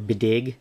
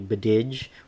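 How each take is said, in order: First: The name has two syllables ending in a hard 'g'. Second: The name has two syllables ending in a soft 'dj'. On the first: "I thought it, it was originally Bididge or Bidig" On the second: "I thought it, it was originally Bididge or Bidig"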